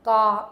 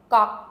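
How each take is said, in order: First: "Ga" said at normal length, loud; plain first-row ga. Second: "Ga" said much faster, clipped from the throat. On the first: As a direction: say "Ga" plainly, unhurried. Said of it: "so you can hear comparison". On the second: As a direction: snap "Ga" out quickly from the throat. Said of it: "Much faster". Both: Shown as a demonstration.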